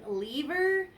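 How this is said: It is said with a Maryland East Coast accent.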